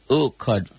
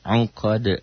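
First: The word begins with a plain vowel. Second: The word begins with a throaty ain sound. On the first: The speaker calls it wrong. "jangan uqad" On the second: The speaker calls it right.

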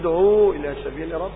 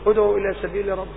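First: The vowel after the first word is long. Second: The vowel after the first word is short. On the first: The speaker calls it wrong. "فإذا أشبعت الحركة تولد واو، وهذا خطأ" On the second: The speaker calls it right. "قل"

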